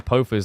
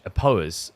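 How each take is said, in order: First: The name has an f sound in the middle. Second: The name has no f sound in the middle.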